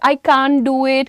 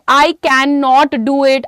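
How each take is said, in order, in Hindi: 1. नकारात्मक शब्द संकुचित होकर एक छोटे शब्द में बदल जाता है। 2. नकारात्मक शब्द पूरा बोला जाता है, दो शब्दों के रूप में।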